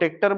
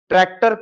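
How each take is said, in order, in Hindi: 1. यह शब्द सरल, बदले हुए रूप में बोला गया है। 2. यह शब्द अपने पूर्ण मानक रूप में बोला गया है।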